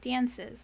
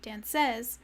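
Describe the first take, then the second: First: The stress is on the first syllable. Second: The stress is on the second syllable. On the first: The speaker calls it right. "it's all emphasis on the first syllable" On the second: The speaker calls it wrong. "not the second"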